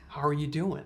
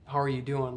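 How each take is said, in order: First: It is asked in a warm, sincere way. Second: It is asked in a quick, offhand way.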